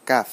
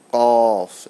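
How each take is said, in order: First: "কাফ" short with an ordinary k; simple KAF. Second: Loud, full "কফ" with a dark vowel; deep, heavy QAF. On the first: Teacher contrasting the easy letter, simple light "কাফ". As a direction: say "কাফ" lightly, nothing heavy. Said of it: "simple". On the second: Teacher showing how the heavy letter goes, deep "কফ". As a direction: darken and hold "কফ". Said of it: "আওয়াজটা গাঢ় হবে". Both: Shown as a demonstration.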